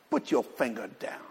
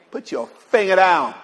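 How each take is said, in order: First: Low, hushed aside with a slight laugh; soft instruction. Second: Emphatic command. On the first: Preacher cues the congregation to tell someone, softly amused. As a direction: say it softly, well down in pitch. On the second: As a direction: raise the volume and make it an order. Repeats the cue, much louder. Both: Shown as a demonstration.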